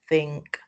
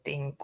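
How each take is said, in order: First: The first sound is th, tongue between teeth. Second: The first sound is not a th sound. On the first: The speaker calls it right. "It has to be ... think, Your tongue has to be between your teeth" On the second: The speaker calls it wrong. "you cannot say ... think"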